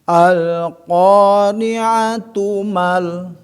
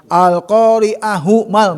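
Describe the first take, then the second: First: A t sound links the two words. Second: An h sound links the two words. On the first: The speaker calls it right. "pada saat dia dilanjutkan, diwasolkan, tetap jadi ta" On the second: The speaker calls it wrong. "jadi tu tetap bukan al-qari'ahu mal, bukan"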